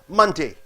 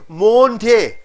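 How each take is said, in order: First: The first vowel sounds like 'ah'. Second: The first vowel sounds like 'oh'. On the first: The speaker calls it right. "O sound is sounding as ah" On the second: The speaker calls it wrong. "you don't say Monday"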